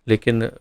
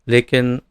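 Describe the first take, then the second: Both takes have the same delivery.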